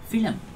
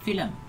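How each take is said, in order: First: It is said with a Malaysian pronunciation. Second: It is said with a standard pronunciation.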